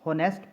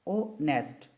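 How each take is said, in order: First: The word begins with an h sound. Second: The word begins with a vowel sound. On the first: The speaker calls it wrong. "बाज़ लोग इसे होनेस्ट पढ़ते हैं जो कि गलत pronunciation है इसकी" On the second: The speaker calls it right. "जो एक्चुअल प्रोनाउंसिएशन है"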